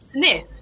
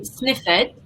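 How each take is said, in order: First: The -ed ending adds no extra syllable. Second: The -ed ending is said as an extra syllable. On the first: The speaker calls it right. "We say sniff" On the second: The speaker calls it wrong. "we don't say sniffed"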